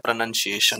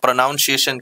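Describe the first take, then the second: First: The second syllable sounds like 'nun'. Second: The second syllable sounds like 'noun'. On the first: This is how the children from outside say it. "जो बाहर का बच्चा है प्रोनंसिएशन कहता है" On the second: This is how the local children say it. "यहाँ का लो बच्चा लोग अ, प्रोनाउंसिएशन कहता है"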